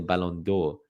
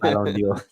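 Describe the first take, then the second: First: The last word is said as one syllable, 'dor'. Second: The last word is said as two syllables, 'dee-or'. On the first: The speaker calls it right. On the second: The speaker calls it wrong.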